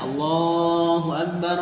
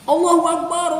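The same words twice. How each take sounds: First: It is said at normal volume. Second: It is shouted loudly. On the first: The speaker calls it right. "Biasa aja" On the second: The speaker calls it wrong. "jangan diartikan takbirnya teriak-teriak"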